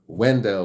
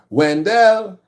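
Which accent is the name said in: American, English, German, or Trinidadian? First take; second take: English; Trinidadian. First: The name is said with an English accent. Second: The name is said with a Trinidadian accent. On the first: "which is the English" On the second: "If you're Trinidadian, ... they'll say Wendell"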